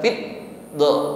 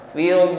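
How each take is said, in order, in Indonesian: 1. Bunyi konsonan ditahan lalu dihentikan. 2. Bunyi konsonan terus mengalir tanpa berhenti. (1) "bukan fit do" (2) "dan suaranya tetap jalan, ya, tidak tertahan"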